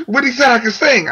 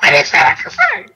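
First: High, mildly thrilled disbelief; excited retelling. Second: Very high squealed disbelief; spazzed out. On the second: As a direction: imitate yourself losing it with excitement. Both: Retold or imitated. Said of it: "I kinda spazzed out".

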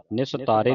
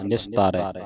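First: ਨਿਸਤਾਰੇ with a close final "e"; wrong "e" ending. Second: ਨਿਸਤਾਰੈ with open final "ai", falling; open "ai" ending. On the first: Teacher warning students of a misreading, ਨਿਸਤਾਰੇ with final "e". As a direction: end ਨਿਸਤਾਰੇ on "ay". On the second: Teacher correcting students, ਨਿਸਤਾਰੈ with final open "ai". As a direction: end ਨਿਸਤਾਰੈ on an open vowel. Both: Shown as a demonstration. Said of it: "ਨਿਸਤਾਰੇ ਨਹੀਂ ਪੜ੍ਹਨਾ".

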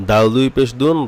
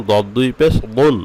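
First: Said in the usual way. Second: "দুন" with a thick, full-mouthed d; heavy dad. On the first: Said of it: "কিন্তু দদটা মোটা হবে". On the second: Shown as a demonstration. Teacher saying it must be made thick, heavy "দুন". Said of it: "মোটা করতে হবে".

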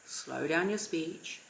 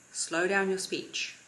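First: Much slower, softer delivery; modelling unhurried calm speech. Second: Slow, measured delivery; demonstrating slow speech. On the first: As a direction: let each word of slow down your speech sink in. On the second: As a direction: drag out slow down your speech. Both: Shown as a demonstration.

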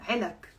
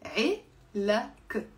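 First: Said in the usual way. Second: "علك" very slowly split as 3e-lak; two syllables. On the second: Shown as a demonstration. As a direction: break "علك" into two drawn-out syllables for learners. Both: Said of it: "Two syllables".

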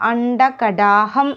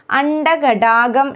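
First: അണ്ടകടാഹം with a clear h; correct pronunciation. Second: അണ്ടകടാകം with g for h; wrong pronunciation. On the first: Teacher correcting learners, breathed "ham" in അണ്ടകടാഹം. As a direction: say അണ്ടകടാഹം as "anda-kadaaham". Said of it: "എന്നാണ്". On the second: Teacher showing the mistake, "gam" ending in അണ്ടകടാകം. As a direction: say അണ്ടകടാകം as "andakadaagam". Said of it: "എന്നല്ല". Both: Shown as a demonstration.

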